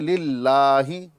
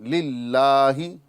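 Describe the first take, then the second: The two takes are said the same way.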